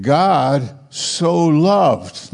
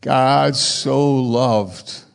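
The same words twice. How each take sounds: First: God so loved drawn out very slowly; slow emphatic reading. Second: God so loved stretched out very slowly; slow emphatic reading. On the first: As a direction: savour each word, slow and deliberate. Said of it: "But wait a minute". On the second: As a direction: hold each word, slow and weighty. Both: Shown as a demonstration.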